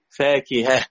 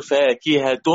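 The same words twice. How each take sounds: First: فاكهة pronounced fakiha, pausal reading; pausal form. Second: فاكهة ending in a clear t sound, fakihat, as if joined to the next word; فاكهة pronounced fakihat, connected reading; fakihat in joining. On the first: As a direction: stop on فاكهة with a final h, no t. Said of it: "لما نقف نقول". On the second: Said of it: "لو هنوصل نقول". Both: Shown as a demonstration.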